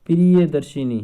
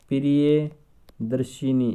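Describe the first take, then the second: First: Priyadarshini called out loud and firm, falling at the end; emphatic. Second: Priyadarshini drawn out syllable by syllable, very slow; slow spelling-out. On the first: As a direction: announce Priyadarshini loudly to the class. (Priyadarshini ज़ोर से बोलना) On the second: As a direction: stretch Priyadarshini so students hear each part. (Priyadarshini धीरे-धीरे अक्षर-अक्षर) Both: Shown as a demonstration. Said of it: "देखो, एक शब्द लिखा जाता है".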